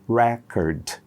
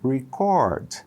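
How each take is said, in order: First: The stress is on the first syllable. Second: The stress is on the second syllable. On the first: It is the noun, a record or disc. "Record, que é a primeira" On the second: It is the verb, to record. "O verbo gravar, record"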